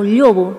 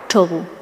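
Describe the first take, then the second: First: The word begins with a palatal ll sound. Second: The word begins with a retroflex ch sound. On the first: This is how most of the region says it. "en el resto de Asturias tienen una lle" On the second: This is how the western variety says it. "la che vaquera"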